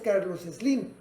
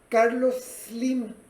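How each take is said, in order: First: The surname starts with an added e sound. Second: The surname starts directly with an s sound. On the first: The speaker calls it wrong. "en su apellido no lleva una E" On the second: The speaker calls it right. "deberíamos de decir Carlos Slim"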